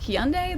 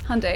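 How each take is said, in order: First: Hyundai is said in the speaker's local pronunciation. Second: Hyundai is said in the American pronunciation. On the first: "That's how we say it" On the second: "I learnt from The Walking Dead that it's pronounced Hyundai"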